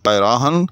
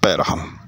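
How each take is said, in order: First: The vowel after the r is long. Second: The vowel after the r is short. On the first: "अलिफ के साथ रे के बाद के पैराहन" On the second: "दूसरी सूरत पैरहन"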